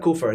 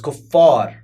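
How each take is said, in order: First: The f sound is short and single. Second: The f sound is held long and doubled. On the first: The speaker calls it wrong. "that's not kufar" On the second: The speaker calls it right. "it's kuffar with the shadda"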